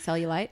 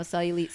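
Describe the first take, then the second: First: "cellulite" said as SELL-you-light; long-I ending. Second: "Cellulite" said as SELL-you-leet; long-E ending. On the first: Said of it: "West Coast thing". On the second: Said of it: "maybe it's an East Coast". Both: Shown as a demonstration.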